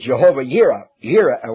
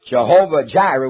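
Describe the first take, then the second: First: The second word begins with a Y sound. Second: The second word begins with a J sound.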